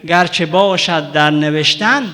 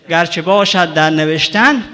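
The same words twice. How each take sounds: No difference in how they are said.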